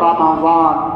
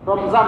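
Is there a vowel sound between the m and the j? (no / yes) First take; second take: yes; no. First: An a vowel sounds between m and j. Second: The m runs straight into the j. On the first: The speaker calls it right. "নিমের মধ্যে জবর দিয়ে আরবি শব্দ সঠিক শুদ্ধ উচ্চারণ করা" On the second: The speaker calls it wrong. "রমজান বলবেন না"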